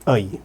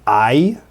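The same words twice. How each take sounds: First: The vowel starts raised, as in Canadian English. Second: The vowel starts low, as most English speakers say it. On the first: "we say I" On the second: "Instead of saying I"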